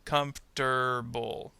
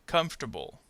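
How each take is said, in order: First: "Comfortable." slowly split as KUMF... TER... BUL; syllable by syllable. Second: "Comfortable." run together as KUMF-ter-bul; dropped syllable. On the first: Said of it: "R sound is going to go with". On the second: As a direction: demonstrate "Comfortable." in three connected syllables. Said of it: "middle syllable will disappear". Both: Shown as a demonstration.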